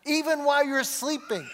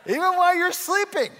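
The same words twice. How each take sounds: First: Raised, higher preaching voice; emphatic preaching. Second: Loud, high-pitched preacher's shout; playful shout. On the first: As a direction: drive the point home, higher pitched. Emphatic preaching, first take. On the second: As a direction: belt it out much higher and louder. Repeats it louder after baby reacted. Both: Real, not acted.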